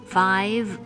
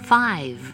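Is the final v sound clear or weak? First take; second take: clear; clear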